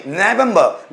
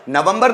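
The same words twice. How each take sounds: First: नवंबर said "neh-VUM-buh", no final R; correct English. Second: नवंबर said "nuh-vum-bur", R sounded; wrong for English. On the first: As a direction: model नवंबर as English November with the R dropped. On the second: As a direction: say नवंबर the Hindi way, short "uh" vowels and final R. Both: Shown as a demonstration. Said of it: "नवंबर नहीं".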